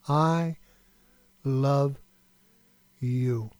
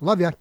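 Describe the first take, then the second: First: It is said slowly with full, sincere intention. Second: It is tossed off quickly and casually.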